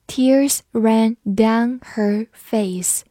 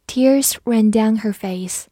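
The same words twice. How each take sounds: First: Very slow, each word on its own; slow read-through. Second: Said in the usual way. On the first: Shown as a demonstration. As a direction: say it word by word for learners. (一字一顿地慢读) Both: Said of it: "我们慢读一遍".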